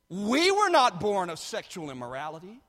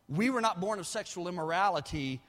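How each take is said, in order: First: The word 'we' carries strong emphasis. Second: The word 'we' carries no special emphasis.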